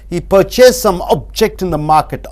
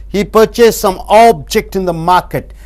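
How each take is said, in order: No difference in how they are said.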